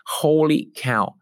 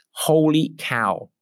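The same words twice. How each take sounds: First: Slow, drawn-out American Holy cow again; light American accent on repeat. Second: Slow, drawn-out American Holy cow; mock American exclaim; American accent. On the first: Shown as a demonstration. Coach repeating client's words, American accent. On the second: Client's delight in an American accent. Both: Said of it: "in my best American accent".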